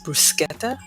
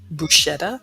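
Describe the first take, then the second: First: The middle consonant is a hard 'sk' sound. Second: The middle consonant is a soft 'sh' sound. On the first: This is how it is said in Italy. The speaker calls it right. "the proper pronunciation is bruschetta" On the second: This is how people at home usually say it. The speaker calls it wrong. "I know we say bruschetta"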